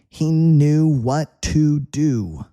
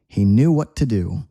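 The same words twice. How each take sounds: First: The sentence is spoken at a slower pace. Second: The sentence is spoken at a faster pace.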